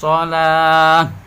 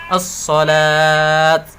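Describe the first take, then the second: First: The word ends with an h sound. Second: The word ends with a t sound. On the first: The speaker calls it right. "Yang benar wa yuqimunas shalah" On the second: The speaker calls it wrong. "bukan as-shalat"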